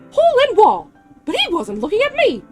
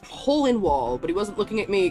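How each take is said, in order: First: It is read in a Mickey Mouse voice. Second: It is read in his normal voice.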